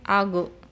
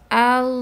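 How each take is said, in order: First: The final consonant bounces with an echo vowel. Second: The final consonant flows on smoothly. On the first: The speaker calls it wrong. "jangan sampai algo ... dipantulkan" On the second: The speaker calls it right. "harus dialirkan dengan sempurna"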